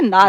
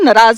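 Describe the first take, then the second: First: It is said in standard Hindi. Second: It is said with a Punjabi accent.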